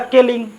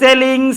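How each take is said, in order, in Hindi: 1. यह शब्द k की आवाज़ से शुरू होता है। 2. यह शब्द s की आवाज़ से शुरू होता है। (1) "जो कि मेरा क्या है, गलत है।" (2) "पढ़ना है सेलिंग।"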